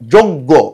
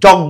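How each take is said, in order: First: The first vowel sounds like 'o'. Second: The first vowel sounds like 'a'. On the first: The speaker calls it right. "হবে যোগ্য" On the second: The speaker calls it wrong. "যজ্ঞ হবে না"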